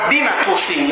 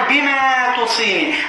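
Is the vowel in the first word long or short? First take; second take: short; long. First: The vowel in the first word is kept short. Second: The vowel in the first word is drawn out. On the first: The speaker calls it right. "А надо было сказать просто" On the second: The speaker calls it wrong. "Не надо тянуть"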